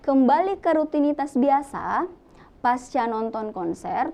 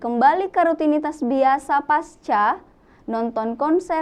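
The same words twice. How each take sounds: First: There is a pause after 'biasa'. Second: It runs on with no pause after 'biasa'. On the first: The post-concert feeling is the subject of the sentence. The speaker calls it right. "itu adalah kalimat yang lebih uh, logis jika seperti itu" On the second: Returning to routine seems to happen after the concert. The speaker calls it wrong. "kalau tidak ada tanda koma, maka kita akan membaca seperti ini"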